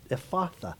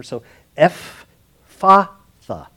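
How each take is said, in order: First: Said in the usual way. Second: Ephphatha drawn out very slowly, loud, F sound for the PH; slow spelled-out Ephphatha, EF-FA-THA; careful pronunciation. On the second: Shown as a demonstration. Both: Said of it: "The P H still has that F sound".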